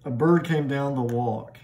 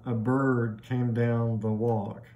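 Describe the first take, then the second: First: Said in the usual way. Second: Slow, each stress in "A bird came down the walk" marked, da-DUM da-DUM da-DUM; iambic meter. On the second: Shown as a demonstration. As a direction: tap out the iambic beat slowly. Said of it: "very iambic throughout the poem".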